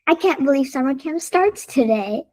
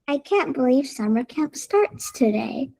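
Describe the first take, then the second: First: It is said very fast. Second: It is said at a normal, calm pace.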